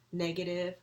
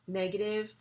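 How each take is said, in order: Both takes have the same delivery.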